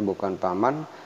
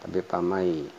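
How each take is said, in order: First: A clear n sound ends the word. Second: The n sound merges into the next y. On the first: The speaker calls it wrong. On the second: The speaker calls it right. "ini idgham"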